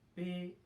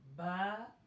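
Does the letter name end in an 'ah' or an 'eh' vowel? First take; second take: eh; ah. First: The letter name ends in an 'eh' vowel. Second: The letter name ends in an 'ah' vowel. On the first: It is the Urdu way of naming the letter. The speaker calls it wrong. "do not recite the Arabic alphabets like in Urdu" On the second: It is the Arabic way of naming the letter. The speaker calls it right. "Pronounce them like"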